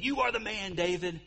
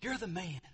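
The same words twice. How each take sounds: First: Higher, pointed accusing tone; angry accusation. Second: Softer, heartbroken telling of the truth; trembling voice. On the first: Nathan pointing at David in anger, accusing tone. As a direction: jab the words like a pointed finger. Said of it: "with eyes of anger and saying". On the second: Nathan to his friend David, softer broken-hearted tone. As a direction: let the words break a little. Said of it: "with a trembling, shaky voice". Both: Retold or imitated.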